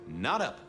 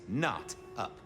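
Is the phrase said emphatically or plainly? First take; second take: plain; emphatic. First: It is said in a plain, ordinary way. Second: It is said with strong, forceful emphasis.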